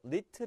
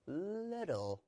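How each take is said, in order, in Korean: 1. 가운데 t는 딱딱한 t 소리입니다. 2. 가운데 t는 부드러운 탄설음입니다. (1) "little 아니고요" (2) "똑같은 원리로"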